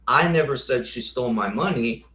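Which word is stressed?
money. The stress is on the word money.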